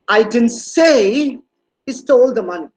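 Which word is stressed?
say. The stress falls on the word "say". It was implied but not said out loud. "No, it was not very verbal on my on my part"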